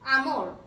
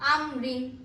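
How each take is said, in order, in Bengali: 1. শব্দটি খালি 'r' ধ্বনি দিয়ে শেষ হয়েছে। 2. শব্দটি 'rin' সিলেবল দিয়ে শেষ হয়েছে।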